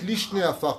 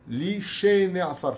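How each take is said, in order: First: The vowel after the 'sh' sound is dropped. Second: A full 'e' vowel follows the 'sh' sound. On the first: It means the two dusts. The speaker calls it wrong. "Si vous dites Lishne Afar, comme le disent beaucoup d'hommes, vous avez tout fait tomber par terre" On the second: It means those who sleep in the dust. The speaker calls it right. "c'est un tser et c'est pas un shva"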